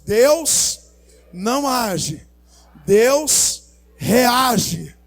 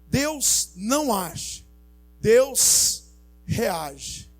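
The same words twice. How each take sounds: First: It is said louder and more forcefully. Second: It is said at normal, softer volume.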